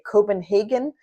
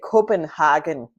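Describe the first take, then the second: First: It is pronounced the English way. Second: It is pronounced the German way. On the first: "which is what I would call it uh, in English" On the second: "they would say Copenhagen"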